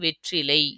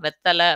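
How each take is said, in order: First: A full form with an r sound and a final ai. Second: A reduced form with a double t and a final a. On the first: This is the proper, pure form of the word. The speaker calls it right. "உண்மையானது அது வந்து வெற்றிலை" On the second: This is how people say it in everyday speech. The speaker calls it wrong. "அப்படின்னு நம்ம வாயில சொல்றோம்"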